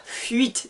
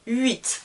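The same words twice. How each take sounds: First: "fuite" with an F in front of "uit"; wrong pronunciation. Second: "huit" said "ɥit", silent H, no F at all; correct pronunciation. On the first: Teacher contrasts a false H sound for students, F sounded. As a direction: put a sounded F where "huit" should be. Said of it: "Je ne dis pas fuite". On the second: Teacher corrects the students' mistake, silent H. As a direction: start "huit" straight on the vowel glide. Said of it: "non, huit". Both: Shown as a demonstration.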